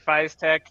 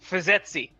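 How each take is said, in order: First: The name ends with a 'tech' sound. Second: The name ends with an 'etsy' sound. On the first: "I've been saying it Fiztech" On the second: "I do a lot of Linux, so it's Fizetsy"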